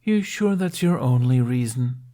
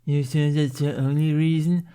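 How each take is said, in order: First: Smirking. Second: Higher mocking echo of the taunt; parroting mockery. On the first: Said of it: "Jack smirked". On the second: Snotlout mocking Jack's question, parroting echo. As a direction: mimic him back childishly. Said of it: "Snotlout parroted back". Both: A narrator's reading.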